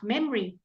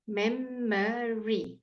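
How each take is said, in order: First: Memory as two syllables, MEM-ree; quicker memory, middle sound swallowed; middle vowel left out. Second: Memory very slowly, mem-muh-ree; teacher's slow, three-syllable memory; drawn-out syllable demo. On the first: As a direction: drop the uh from memory. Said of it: "you can leave it out". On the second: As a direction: stretch memory so the middle uh is heard. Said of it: "Can you hear it?". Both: Shown as a demonstration.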